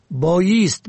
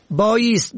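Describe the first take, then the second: First: بایست said "bayest"; kasra on second. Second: بایست said "bayast"; fatha on second. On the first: Teacher shows بایست as "stand!", pronounced bayest. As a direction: close e or i after y in بایست. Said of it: "به کسر دوم". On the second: Teacher shows بایست for "must", pronounced bayast. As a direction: open a after y in بایست. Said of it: "به فتح دوم". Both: Shown as a demonstration.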